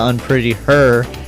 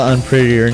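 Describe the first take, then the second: First: The final syllable 'her' carries strong stress. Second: The final syllable is said without extra stress. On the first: "putting an emphasis on the her" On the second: "instead of unprettier"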